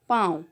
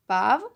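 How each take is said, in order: First: पाँव with a clearly nasalized long aa; nasal vowel. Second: Said in the usual way. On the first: Shown as a demonstration. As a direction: say पाँव through the nose on the aa. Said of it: "एक में चंद्रबिंदु है और एक में नहीं है". (पाँव में आ की ध्वनि नाक से) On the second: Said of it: "बोलिए और अंतर समझिए".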